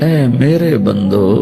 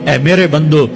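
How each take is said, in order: First: The phrase is said in a tender, loving tone. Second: The phrase is said in a plain, unaffectionate tone. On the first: The speaker calls it right. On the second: The speaker calls it wrong.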